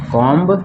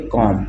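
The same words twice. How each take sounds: First: "कॉम्ब" with the final b pronounced; wrongly sounded b. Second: "कॉम" stopping on the m; silent b. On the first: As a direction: release a b after the m in "कॉम्ब". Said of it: "ये नहीं पढ़ेंगे". ("कॉम्ब" का आखिरी ब साफ़ सुनाई दे) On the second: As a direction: drop the written b in "कॉम". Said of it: "हम इसको पढ़ेंगे". ("कॉम" में बी नहीं बोलना) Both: Shown as a demonstration.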